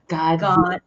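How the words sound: The mouth opens wide, English style. "We're catching flies that open up your mouth and feel the breeze"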